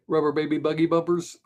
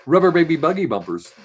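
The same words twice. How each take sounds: First: Put-on rubber baby buggy bumpers in a steady even announcer tone; tongue twister. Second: Put-on Rubber baby buggy bumpers punched out loud and crisp; DJ tongue twister. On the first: Running the DJ diction drill again. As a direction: rattle it off evenly like a DJ. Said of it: "so ready". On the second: Practising a tongue twister for DJ diction. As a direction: enunciate it like a DJ warm-up. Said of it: "you practice saying". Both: Shown as a demonstration.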